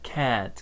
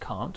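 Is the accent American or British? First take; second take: American; British. First: It is said with an American 'air'-like vowel. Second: It is said with a British vowel. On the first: "Americans might say more like can't, can't, like an air sound" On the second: "I'm from the U K, so I say can't have, can't, can't"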